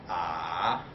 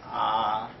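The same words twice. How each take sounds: First: The pitch dips down, then rises. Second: The pitch stays level throughout. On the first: "it's like a uh, valley" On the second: "the first one is like ah, it's like a flat"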